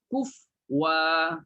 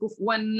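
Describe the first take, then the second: First: The word ends on a plain wa, no n. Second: The word ends with an n sound. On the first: The reciter stops on this word. The speaker calls it right. "Maka bunyinya kuf wa" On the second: The reciter carries on past this word. The speaker calls it wrong. "Bukan kufwan lagi"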